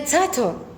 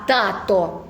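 First: The first sound is a ts-like affricate. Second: The first sound is a plain, crisp t. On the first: The speaker calls it wrong. "Не цато" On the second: The speaker calls it right. "А тато"

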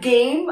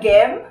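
First: The vowel sounds like standard English 'game'. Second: The vowel is altered, as a learner says it. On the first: The speaker calls it right. "instead of game" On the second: The speaker calls it wrong. "ang basa nila game"

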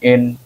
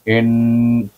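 First: The nasal sound is held only briefly. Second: The nasal sound is held twice as long. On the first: The speaker calls it wrong. "Kalau kita bunyi satu harakat" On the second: The speaker calls it right. "kalau dua harakat"

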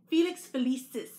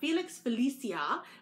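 First: The name ends with an 's' sound. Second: The name ends with an 'ah' sound. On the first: The speaker calls it right. "but it's actually" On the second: The speaker calls it wrong. "I mispronounced it last time. I had said"

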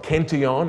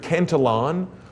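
First: The name is pronounced with a French sound. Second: The name is pronounced with an English sound.

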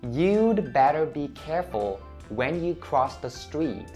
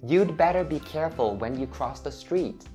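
First: It is spoken at a slower pace. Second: It is spoken at a normal, faster pace.

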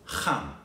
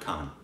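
First: The first sound is rasped deep in the throat. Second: The first sound is a plain hard k. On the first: The speaker calls it right. "it's Khan, From the epiglottis" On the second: The speaker calls it wrong. "not Khan"

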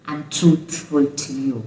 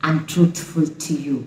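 Both takes have the same delivery.

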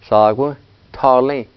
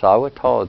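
First: The final vowels of the numbers are pronounced. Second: The final vowels of the numbers are dropped.

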